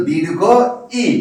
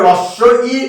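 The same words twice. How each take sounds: First: "দীর্ঘ ই" with a pause, then ই held long; long vowel. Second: "রস্য ই" with ই shorter than the long one; short vowel. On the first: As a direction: say "দীর্ঘ ই", stretching the final ই. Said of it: "উচ্চারণের সময়টা বেশি লাগে". (থেমে, ই টেনে "দীর্ঘ ই") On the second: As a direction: say "রস্য ই" as the short i, set against দীর্ঘ. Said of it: "রস্যই থেকে উচ্চারণের সময়টা বেশি". (ছোট ই, "রস্য ই") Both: Shown as a demonstration.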